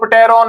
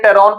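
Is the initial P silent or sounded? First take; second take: sounded; silent. First: The word begins with a sounded P. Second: The word begins with a silent P. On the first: The speaker calls it wrong. "पी silent है तो टेरॉन नहीं पढ़ेंगे" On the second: The speaker calls it right. "टेरॉन पढ़ेंगे"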